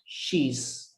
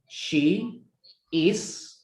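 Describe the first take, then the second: First: The two words are joined into one contracted syllable. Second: The two words are said separately and fully. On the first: "we put these words together" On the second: "we have the word she is"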